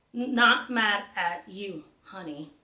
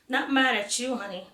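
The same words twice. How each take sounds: First: Slow, with gaps between each word of "Not mad at you, honey"; slow deliberate echo, each word set apart; spaced-out words. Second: Said in the usual way. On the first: Acted. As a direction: leave a pause after every word. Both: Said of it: "adding extra spaces between the words".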